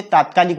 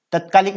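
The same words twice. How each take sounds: First: तात्कालिक with long first "aa"; correct form. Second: तत्कालिक with short first "a"; incorrect form. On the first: Teacher giving students the correct word, तात्कालिक with long taat-. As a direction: stretch the opening taat- in तात्कालिक. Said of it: "तात्कालिक शुद्ध रूप है". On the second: Teacher showing students the faulty word, तत्कालिक with short tat-. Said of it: "तत्कालिक न होके तात्कालिक". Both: Shown as a demonstration.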